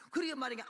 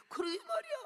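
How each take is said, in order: First: Said in the usual way. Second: High, wailing exclamation of agreement; high heartfelt agreement. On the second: Retold or imitated. Frightened believer admits the fear to self, high wailing agreement. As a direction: cry it out high, giving in completely.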